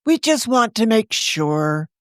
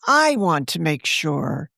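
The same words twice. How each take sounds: First: Said in the usual way. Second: Slow, with I leaned on hard as a correction; stress on I. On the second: Acted. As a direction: correct herself, slowly pressing "I".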